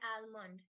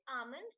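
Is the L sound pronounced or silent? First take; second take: pronounced; silent. First: The L is pronounced. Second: The L is silent. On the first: The speaker calls it wrong. "not almond" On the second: The speaker calls it right. "The L in that word is silent"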